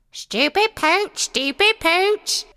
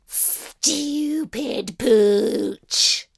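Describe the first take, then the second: First: High squawking parrot voice. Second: Slow, drawn-out hissing insult; hissed insult. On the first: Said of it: "The parrot started repeating". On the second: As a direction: hiss it out spitefully. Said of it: "The cat hissed". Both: A narrator's reading.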